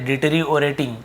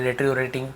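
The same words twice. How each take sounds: First: The word is said in a non-American accent. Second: The word is said in an American accent. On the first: "कई लोग इसे ऐसे डेटेरियोरेटिंग ऐसे भी पढ़ते हैं" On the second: "और अमेरिकन वाले डेटेरियोरेटिंग"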